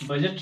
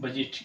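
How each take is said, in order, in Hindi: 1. दूसरा अक्षर 'jat' जैसा सुनाई देता है। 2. दूसरा अक्षर 'jeet' जैसा सुनाई देता है। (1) "बजट नहीं" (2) "ये इंग्लिश का साउंड बजीट होता है"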